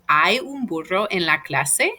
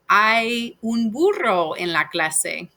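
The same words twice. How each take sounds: First: The voice rises at the end. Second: The voice falls at the end. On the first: It asks whether something exists. "you're just lifting up your voice a little bit" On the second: It states that something exists. "There is a donkey in the class"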